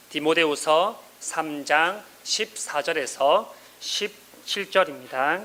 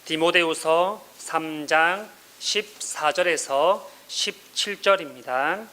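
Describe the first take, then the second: No difference in how they are said.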